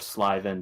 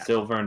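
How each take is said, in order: First: The first syllable sounds like 'sly'. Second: The first syllable sounds like 'sill'. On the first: "some people pronounce it Slyvan for some reason" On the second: "Sylvan or Slyvan, depending on how you want to pronounce it"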